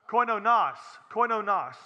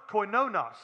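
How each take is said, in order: First: "koinonos" said firmly with the stress put right; corrected emphasis. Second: "koinonos" with the stress on the wrong syllable; misplaced emphasis. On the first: Preacher correcting his Greek for the congregation, "koinonos" firmly re-stressed. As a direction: repeat "koinonos" deliberately, correcting the stressed syllable. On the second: Preacher fumbling a Greek word for the congregation, "koinonos" mis-stressed. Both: Real, not acted. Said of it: "get my emphasis on the right syllable".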